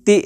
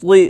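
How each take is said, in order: First: ती with a light, ordinary Urdu t; ती as a plain dental t, not emphatic; thin t. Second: ती with a heavy, emphatic Arabic t; dark, full ती; full-mouthed t. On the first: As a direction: keep ती thin, without filling the mouth. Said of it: "ती नहीं पढ़ेंगे". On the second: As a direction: say ती thick, tongue back raised. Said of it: "ती पुर पढ़ेंगे". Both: Shown as a demonstration.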